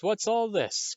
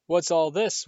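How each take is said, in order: First: Much higher, booming hearty call; higher jovial repeat. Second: Booming, hearty question; loud jovial call. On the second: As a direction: boom it out cheerfully. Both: Acted. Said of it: "thundered jovially".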